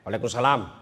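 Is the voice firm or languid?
firm. It is said in a firm, clipped voice.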